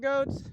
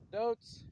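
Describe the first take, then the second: First: The word begins with a hard G sound. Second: The word begins with a D sound. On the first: "Sometimes I call them goats" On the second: "couldn't pronounce the, the G, and they came out like a D"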